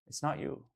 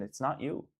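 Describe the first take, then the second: First: It's not you, whispered softly. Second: Said in the usual way. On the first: Real, not acted. To a struggling friend, a soft reassuring whisper.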